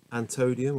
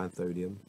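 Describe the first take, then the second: First: "antodium" with a hard t; an-TOE-dee-um, no th in "antodium"; hard t pronunciation. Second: An-THO-dee-um, th in "anthodium"; th pronunciation. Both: Shown as a demonstration. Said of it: "is that anth or ant?".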